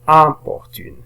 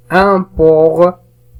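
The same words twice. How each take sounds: First: Said in the usual way. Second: "importune" very slow, higher and louder, in pieces; stretched, raised "importune" split by syllables. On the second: Shown as a demonstration. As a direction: sound out "importune" as im, por, tune. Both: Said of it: "Alors je relis les mots".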